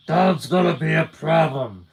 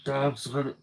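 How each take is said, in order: First: Gumshoe voice. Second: Said in the usual way. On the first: Acted. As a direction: growl it like an old noir gumshoe. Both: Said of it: "I gotta do my gumshoe voice".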